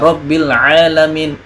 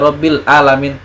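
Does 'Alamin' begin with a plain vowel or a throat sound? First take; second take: throat sound; plain vowel. First: Alamin begins with a deep throat consonant. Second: Alamin begins with a plain open vowel. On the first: The speaker calls it right. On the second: The speaker calls it wrong.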